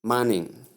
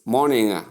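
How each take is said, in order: First: "morning" with an a vowel and weak ending, mahnin; mispronunciation. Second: "morning" with its ng fully released; clear ng ending. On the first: Teacher showing learners the wrong way, mispronunciation. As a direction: say morning as MAH-nin. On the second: Teacher correcting learners' ending, clear ng ending. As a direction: say morning slowly as MOR-ning-uh. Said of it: "So pronounce it clearly". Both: Shown as a demonstration.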